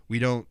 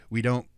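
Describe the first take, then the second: No difference in how they are said.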